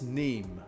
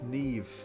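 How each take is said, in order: First: The name ends with an 'm' sound. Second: The name ends with a 'v' sound. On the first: The speaker calls it wrong. "that's Neem. No" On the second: The speaker calls it right. "it's Neve"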